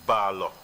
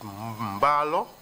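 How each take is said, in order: First: The name begins directly with a b sound. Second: The name begins with a nasal m sound. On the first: "but it is Balo" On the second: "It is the fuller pronunciation who used to say Mbalo"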